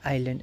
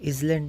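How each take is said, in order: First: The s is silent, like eye-land. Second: The s is pronounced, like izland. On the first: The speaker calls it right. "एस silent रहता है" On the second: The speaker calls it wrong. "हम लोग बोलते हैं इजलैंड नहीं"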